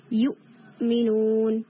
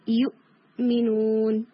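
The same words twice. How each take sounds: First: یؤمنون slow, with a crisp stop on the hamza; Quranic recitation. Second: یؤمنون slow, hamza struck once and not stretched; Quranic recitation. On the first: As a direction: recite یؤمنون, hitting the sukun hamza clearly. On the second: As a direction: repeat یؤمنون with a firm glottal hit. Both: Shown as a demonstration. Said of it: "ایک ہٹ کی sound آتی ہے".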